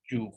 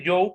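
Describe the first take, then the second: First: "you" said with an "oo" vowel; correct English pronunciation. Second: "yo" read as written, Spanish-style; spelling pronunciation. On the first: Teacher shows how it is pronounced, "you" as "yu". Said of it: "pero ¿cómo se pronuncia". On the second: Teacher shows how it is written, "yo" as spelt. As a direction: read "yo" by its letters, with an o. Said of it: "Se escribe yo". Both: Shown as a demonstration.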